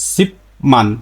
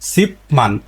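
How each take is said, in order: First: The first syllable ends with a p sound. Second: The same.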